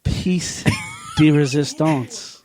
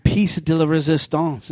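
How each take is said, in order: First: "Piece de resistance" without the la, slowly; "de resistance" drawn out, la left out; corrected, no "la". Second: "piece de la resistance" with an extra la; "piece de la resistance", la wrongly inserted; mistaken extra "la". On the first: Shown as a demonstration. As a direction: say "Piece", pause, then "de resistance". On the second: Real, not acted. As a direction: slip a "la" in before "resistance". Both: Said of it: "There's no la".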